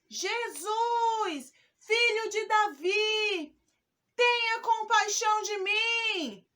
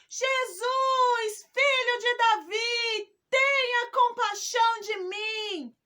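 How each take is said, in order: First: It is shouted at a lower volume. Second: It is shouted at a higher volume.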